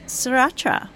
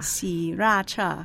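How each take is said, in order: First: An R sound is heard after the S. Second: No R sound is heard after the S. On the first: The speaker calls it wrong. "I'm obviously pronouncing it wrong" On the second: The speaker calls it right. "but the R is not pronounced"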